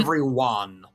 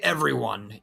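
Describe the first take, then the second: First: The final syllable 'one' is strongly emphasized. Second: The final syllable is not specially emphasized. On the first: The speaker calls it right. "You say everyone, like one" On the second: The speaker calls it wrong. "you don't say everyone"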